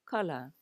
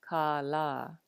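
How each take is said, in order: First: Both vowels are short. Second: Both vowels are long. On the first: "no kahako. It is pronounced kala" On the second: "ke a ko la a ko. This is pronounced kala"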